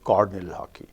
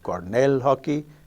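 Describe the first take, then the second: First: Cornell is stressed on its first syllable. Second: Cornell is stressed on its second syllable. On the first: The stress moved to avoid a clash. "The stress in the left word has shifted one notch on the left" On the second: Two stresses sit next to each other. "instead of Cornell hockey"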